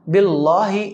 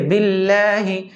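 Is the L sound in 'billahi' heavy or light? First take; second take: heavy; light. First: The L sound is heavy and thick. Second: The L sound is light and thin. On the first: The speaker calls it wrong. "ये गलत है" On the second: The speaker calls it right. "सही है"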